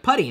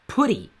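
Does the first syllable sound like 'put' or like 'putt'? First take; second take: putt; put. First: The first syllable rhymes with 'cut'. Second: The first syllable sounds like the word 'put'. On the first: The speaker calls it wrong. "I called it PuTTY because it's spelled like putty" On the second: The speaker calls it right. "it's talking about the command put, so it's PuTTY"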